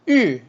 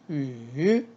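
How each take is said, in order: First: The pitch falls sharply from high to low. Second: The pitch dips low then rises. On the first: "사성" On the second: "삼성"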